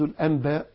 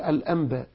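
First: The nasal before b is pronounced as n. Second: The nasal before b becomes a nasalized m. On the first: The speaker calls it wrong. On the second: The speaker calls it right.

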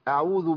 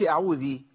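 First: The word ends without any added vowel. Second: The word ends with an added 'ee' vowel. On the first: The speaker calls it right. "أعوذ بالله على طول" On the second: The speaker calls it wrong. "حضرتك ما تقولش أعوذي"

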